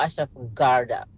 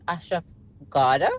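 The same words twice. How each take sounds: First: The R in Garda is clearly pronounced. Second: The R in Garda is silent. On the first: "you emphasize it" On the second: "the R is a little bit silent"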